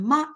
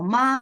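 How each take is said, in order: First: The syllable is short, light and unstressed. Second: The pitch stays high and level.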